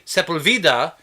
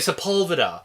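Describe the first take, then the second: First: It is said with Spanish pronunciation. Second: It is said with English pronunciation. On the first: This is how the name should be said. The speaker calls it right. "we don't say Sepulveda" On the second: This is how the locals actually say it. The speaker calls it wrong. "We say Sepulveda"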